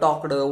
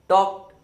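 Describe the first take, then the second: First: The ending is said with an extra vowel sound. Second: The ending is said without an extra vowel sound. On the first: The speaker calls it wrong. "Old pronunciation ... हे pronunciation wrong आहे" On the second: The speaker calls it right. "Pronunciation करत असताना आपण काय कसं केलं पाहिजे"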